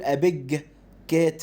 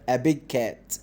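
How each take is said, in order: First: The voice stops after 'big' before 'cat'. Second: 'Big' and 'cat' run together without a stop. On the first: The speaker calls it wrong. "ما ينفعش اقف عند الجي واقول" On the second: The speaker calls it right. "احسهم الاثنين حرف واحد"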